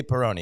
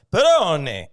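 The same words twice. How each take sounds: First: Said in the usual way. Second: Put-on Italian accent, drawn out and louder; mock Italian accent. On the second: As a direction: imitate an Italian waiter selling it with relish. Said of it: "The accent plays".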